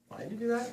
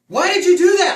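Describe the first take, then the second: First: It is said in a calm, gentle voice. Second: It is said in an angry, intense yell.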